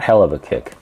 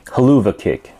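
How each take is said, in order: First: The words are said as separate full words. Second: The words run together as one reduced word. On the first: The speaker calls it wrong. "Not hell of a kick" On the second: The speaker calls it right. "At least that's how they pronounce it"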